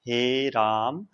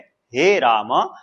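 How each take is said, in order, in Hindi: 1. यह वाक्यांश नीची आवाज़ में बोला गया है। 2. यह वाक्यांश मध्यम आवाज़ में बोला गया है। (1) "निम्न स्वर में बोल रहा है" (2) "मध्यम स्वर में"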